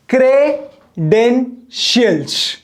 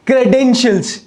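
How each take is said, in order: First: credentials very slowly as "cre", "den", "shials"; three separate slow beats on credentials; split into three syllables. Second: Said in the usual way. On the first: Shown as a demonstration. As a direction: clear pause between each part of credentials. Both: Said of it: "तीन सांस में बोलूंगा".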